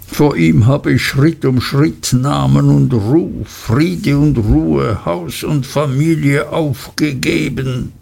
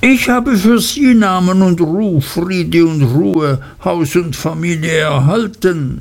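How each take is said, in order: First: A lightly voiced weary old lawyer, slowing; a hint of a ruined man listing his losses; broken father. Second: Higher, wheedling clerk's voice; hurried, cringing, turning the words back; hasty, dismayed Uriah. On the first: To his young friend, a mildly broken old lawyer. Wickfield accuses Uriah, broken. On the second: Acted. Clerk to his master, hasty higher cringing reply. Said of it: "mit einer hastigen, bestürzten Miene".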